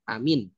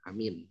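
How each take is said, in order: First: Both vowels are said short. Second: Only the second vowel is held long. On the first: "Jangan dibaca pendek" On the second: "Hanya panjang mi-nya"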